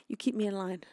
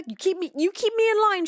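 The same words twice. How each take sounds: First: Said in the usual way. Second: Much higher and louder, exclaimed; loud playful thanks. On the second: Real, not acted. Thanking Shocker for keeping her on task, exclaimed. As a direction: call it out brightly to the chatter.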